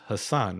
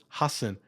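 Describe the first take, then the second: First: The stress is on the second syllable. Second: The stress is on the first syllable.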